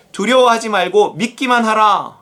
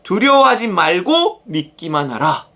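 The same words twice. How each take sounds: First: Raised declaiming of "두려워하지 말고 믿기만 하라"; continuous, emphatic scripture quote; scripture command. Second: Slow repeat, leaning hard on "말고"; deliberate phrasing with "말고" drawn out and punched; stress on 말고. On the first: Acted. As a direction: read the quoted command out firmly. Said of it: "회당장에게 이르시되". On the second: Shown as a demonstration. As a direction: hit "말고", then ease into the rest. Repeats the verse for emphasis.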